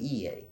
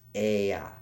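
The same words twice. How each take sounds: First: The vowels are not sounded as 'eh' then 'ah'. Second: The vowels are sounded as 'eh' then 'ah'. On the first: This is how modern scholars say it. The speaker calls it wrong. "they pronounce it this way, but this is not how it was pronounced" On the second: This is how it was originally said. The speaker calls it right. "It was pronounced Ea. E makes a eh, eh sound. A makes a ah"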